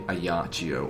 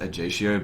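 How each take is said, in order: First: The name begins without an English hard J sound. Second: The name begins with an English hard J sound. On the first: "it's probably a Yachio or a Yakio. So a Yachio sounds better" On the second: "I've always pronounced it a Jatio, but I come from an English-speaking background, so J is always pronounced hard"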